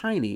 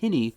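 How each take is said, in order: First: The name sounds like 'Heine'. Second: The name sounds like 'Hinny'. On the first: The speaker calls it wrong. "It's not pronounced Heine" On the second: The speaker calls it right. "it's pronounced Hinny"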